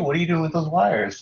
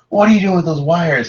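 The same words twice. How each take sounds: First: The question sounds friendly and curious. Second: The question sounds alarmed and accusing. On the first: The parent wants to hear more about it. The speaker calls it right. "It's more like, hey, ... Like, tell me about it" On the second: The parent is scared and disapproving. The speaker calls it wrong. "instead of saying"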